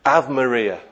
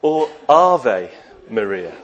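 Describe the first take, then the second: First: "Ave" said like the English word; anglicised "Ave Maria"; misread Latin. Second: "Ave" as AR-vay, slow and careful; proper Latin. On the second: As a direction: correct Latin "Ave Maria". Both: Shown as a demonstration.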